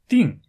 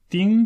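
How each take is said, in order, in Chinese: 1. 这个音节是降调。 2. 这个音节是高平调。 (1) "作为动词的时候我们读四声钉" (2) "作为名词时我们读一声钉子"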